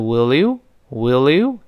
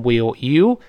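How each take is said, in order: First: "will you" run together as will-lyou; linked sounds. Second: "will you" as two separate words; unlinked, wrong. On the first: Teacher shows learners how will you links up, run together. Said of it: "连读变成". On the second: Teacher shows the reading to avoid, words kept separate. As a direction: break between "will" and "you". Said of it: "所以不能读成". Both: Shown as a demonstration.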